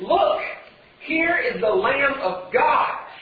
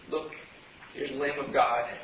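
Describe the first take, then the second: First: It is yelled with passion and excitement. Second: It is said quietly and muffled. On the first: The news is announced with passion. The speaker calls it right. "There's some passion in his voice. There's some excitement. He's yelling" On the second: The news is said without any passion. The speaker calls it wrong. "it wasn't just this muffled little"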